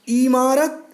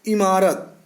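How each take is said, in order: First: The first vowel is long. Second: The first vowel is short. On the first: The speaker calls it wrong. "पहले वाले में ई बड़ी की मात्रा है, वो अशुद्ध है" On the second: The speaker calls it right. "दूसरा शब्द इमारत, जिसमें ई छोटी की मात्रा है"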